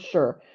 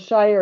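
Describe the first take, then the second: First: It is slurred, sounding like 'sure'. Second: It is said fully, rhyming with 'fire'. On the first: "it becomes sure" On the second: "shire is actually actually slurred"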